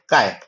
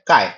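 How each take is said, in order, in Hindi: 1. शब्द नीची पिच में बोला गया है। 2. शब्द सामान्य पिच में बोला गया है। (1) "आवाज को कम कर देगा" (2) "नॉर्मल नंबर कह रहे हैं"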